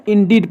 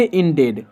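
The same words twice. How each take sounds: First: इंडीड with a short id ending; teacher modelling इंडीड; correct pronunciation. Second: इंडेड with a full ed vowel; the mistake to avoid, इंडेड; teacher showing wrong इंडेड; wrong pronunciation. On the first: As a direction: say इंडीड, not इंडेड. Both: Shown as a demonstration. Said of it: "ना कि इंडेड".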